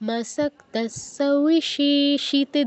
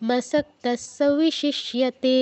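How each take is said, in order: First: The syllables are drawn out long. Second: The syllables are said quickly. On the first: The speaker calls it wrong. "দীর্ঘ হয়ে গেল" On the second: The speaker calls it right. "খুব দ্রুত বলতে হবে।"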